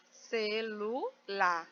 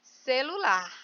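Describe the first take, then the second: First: Celular very slowly, ce-lu-lar; syllable by syllable. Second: Said in the usual way. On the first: Shown as a demonstration. Teacher showing a three-syllable word, celular split slowly. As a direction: separate each syllable of celular with pauses. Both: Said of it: "olha aqui separado".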